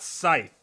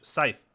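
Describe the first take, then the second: First: The th sound is hard. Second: The th sound is soft. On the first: The speaker calls it wrong. "but it's not scythe" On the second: The speaker calls it right. "it's a soft th"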